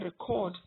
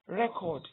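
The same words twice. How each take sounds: First: The stress is on the second syllable. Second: The stress is on the first syllable. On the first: It is the verb. "you put the stress on the second syllable, you have the verb" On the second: It is the noun. "when you put the stress on the first syllable, it becomes record, and it is a noun"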